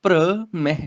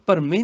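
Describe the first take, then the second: First: ਭ੍ਰਮੈ with the r joined, bhra-mai; joined consonants. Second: ਭਰਮੇ said as bhar-me; wrong syllable split. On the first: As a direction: run the first consonant straight into r in ਭ੍ਰਮੈ, then separate mai. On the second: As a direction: say ਭਰਮੇ with a vowel before the r. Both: Shown as a demonstration. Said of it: "ਇੱਥੇ ਭਰਮੇ ਨਹੀਂ ਕਹਿਣਾ".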